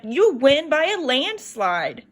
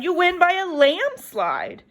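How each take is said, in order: First: Slow, sure and proud; mother's proud reassurance. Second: "by" stressed, higher and slow; lambs' mishearing. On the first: Mother reassuring her daughter, slow and proud. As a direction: promise her daughter she'll win. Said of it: "Missus Farmer said". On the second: Lambs mishearing mother's words, "by" stressed and higher. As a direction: lean on "by" as if a real slide. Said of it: "the lambs thought she said". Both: A narrator's reading.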